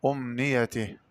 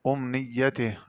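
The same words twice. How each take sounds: First: أمنيته as "umniyatih" with a single y; undoubled ya in أمنيته; lightened ya. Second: أمنيته as "umniyyatih"; heavy ya in أمنيته; doubled ya. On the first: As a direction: glide lightly over the y in أمنيته. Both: Shown as a demonstration. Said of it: "قرأ بتخفيف الياء".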